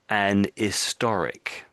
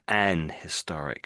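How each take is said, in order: First: The h in historic is silent. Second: The h in historic is clearly pronounced. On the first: The speaker calls it right. "We tend not to pronounce the H" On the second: The speaker calls it wrong. "I just said it wrong"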